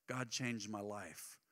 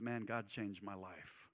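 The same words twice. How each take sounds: First: Soft testimony. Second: Simple sincere testimony. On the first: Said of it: "Well, that's a start". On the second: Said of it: "Sharing your faith is as simple as". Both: Shown as a demonstration.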